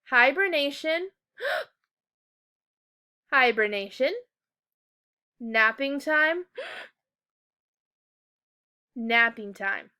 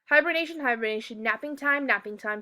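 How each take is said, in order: First: It has a quick breath pause at each comma. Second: It runs straight through without any breath pauses. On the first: The speaker calls it right. "I loved how you took quick breaths every time there was a comma" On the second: The speaker calls it wrong. "I just read all the way through, kind of like a robot"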